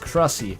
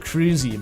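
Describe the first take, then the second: First: The first vowel is a short 'uh' sound. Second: The first vowel is a long 'oo' sound. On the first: This is how the spelling reads. "you look at that and it's Crussy" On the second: This is how other people say it. "People pronounce it cruisy"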